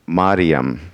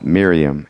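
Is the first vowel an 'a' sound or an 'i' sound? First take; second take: a sound; i sound. First: The first vowel is an 'a' sound. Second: The first vowel is an 'i' sound. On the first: This is the Greek form of the name. "in the Greek it would be more pronounced like Mariam, like that" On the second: This is the Old Testament form of the name. "more like an like an I vowel"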